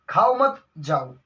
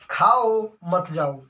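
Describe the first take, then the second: First: Slow खाओ मत as one, break, जाओ; pause after मत. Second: Slow, drawn खाओ, break, मत जाओ; pause after खाओ. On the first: Teacher recapping twisted version, pause after मत. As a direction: join खाओ मत, set जाओ apart. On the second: Teacher recapping the example, pause after खाओ. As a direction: set खाओ apart, join मत जाओ. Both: Shown as a demonstration. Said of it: "इस विराम चिन्ह को यहाँ से उठा के".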